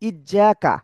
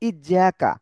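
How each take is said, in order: No difference in how they are said.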